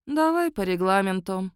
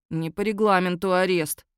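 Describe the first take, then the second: First: Lazy agreement. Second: Grumbling. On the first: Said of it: "лениво согласилась я". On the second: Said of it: "бубнил волкодак". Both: A narrator's reading.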